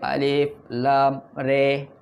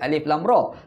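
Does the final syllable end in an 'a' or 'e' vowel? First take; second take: e; a. First: The last syllable ends in an 'e' vowel. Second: The last syllable ends in an open 'a'. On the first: This is the reading of another qiraat. "tapi dia baca alif lam re" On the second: This is the common reading. "dia tak baca alif lam ra"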